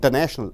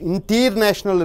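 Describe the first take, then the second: First: The T after the N is dropped. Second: The T after the N is clearly pronounced. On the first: The speaker calls it right. "ஆகையால் இந்த டி உச்சரிக்கப்படுவதில்லை" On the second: The speaker calls it wrong. "இன்டர்நேஷனல் என்று சொல்வதில்லை"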